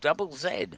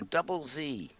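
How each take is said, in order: First: The letter Z is said the British way. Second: The letter Z is said the American way.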